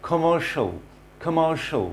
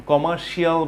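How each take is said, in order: First: "কমার্শিয়াল" ending in a short "sho"; correct pronunciation. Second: "কমার্শিয়াল" with a full "shi-aal" ending; common mispronunciation. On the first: Teacher models the word for learners, correct pronunciation. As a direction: say "কমার্শিয়াল" as "kuh-MAR-sho". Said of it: "আসলে এর pronunciation হবে". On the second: Teacher mimics what learners say, mispronunciation. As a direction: say "কমার্শিয়াল" as "ko-mar-shee-AL". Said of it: "বলে থাকি আমরা". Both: Shown as a demonstration.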